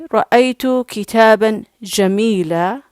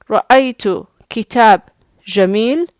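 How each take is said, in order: First: The last word ends in a long vowel. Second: The last word ends on a bare consonant. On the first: "this is the best pronunciation" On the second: "it's not the best modern standard Arabic"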